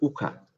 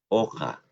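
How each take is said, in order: First: The first vowel sounds like a close u. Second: The first vowel sounds like an open o. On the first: The speaker calls it wrong. "No es uja" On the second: The speaker calls it right. "Hay que abrir sin miedo la boca"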